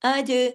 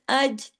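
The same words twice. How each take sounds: First: The final j is released with a bouncing echo. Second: The final j is held still without a bounce. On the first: The speaker calls it right. "अज हिला के" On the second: The speaker calls it wrong. "इसको जमाओं के साथ अज, ऐसे नहीं"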